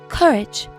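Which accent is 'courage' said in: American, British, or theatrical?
British. British, with no r in the first vowel. "if I was British, I would say courage"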